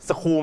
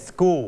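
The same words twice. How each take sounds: First: "school" as s-khool, with a puffed k; wrong aspirated k. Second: "school" as sgool, k close to a g; unaspirated k. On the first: Teacher testing students with a wrong "school", aspirated k. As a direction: say "school" with a breath of air after the k. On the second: Teacher correcting students' "school", k softened to a g sound. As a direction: say "school" with no puff of air after the s. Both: Shown as a demonstration. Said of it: "ตัว s นี้จะทำให้เสียงเคกลายเป็นเสียงเก".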